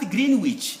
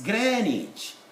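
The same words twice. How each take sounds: First: The first syllable sounds like green. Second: The first syllable sounds like gren. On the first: The speaker calls it wrong. "It's not Greenwich, there is no green here" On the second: The speaker calls it right. "it's Greenwich. ... the W is silent"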